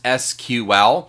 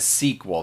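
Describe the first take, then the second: First: It is spelled out as three separate letters. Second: It is said as one word, sequel. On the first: "shorten this to write it to the letters S Q L" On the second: "we tend to want to pronounce it as"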